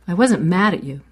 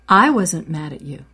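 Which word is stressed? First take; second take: mad; I. First: The stress is on the word mad. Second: The stress is on the word I.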